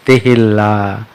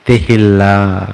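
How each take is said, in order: First: Said in the usual way. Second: తెహిల్లా slowly with a long double l; careful pronunciation. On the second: Shown as a demonstration. Pastor gives the correct word after warning against tehalka. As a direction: say తెహిల్లా slowly, te-hil-laa. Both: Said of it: "తెహల్కా అనమాకండి".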